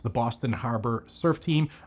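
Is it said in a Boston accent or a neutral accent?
neutral. It is said in a neutral accent.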